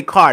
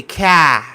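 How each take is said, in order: First: "car" with its R pronounced, louder; plain R in car. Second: "car" as a Boston "cah", louder; Boston accent. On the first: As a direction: sound out the R at the end of "car". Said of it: "they don't say". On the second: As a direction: drop the R in car, Boston style. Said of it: "You have the Boston accent". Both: Shown as a demonstration.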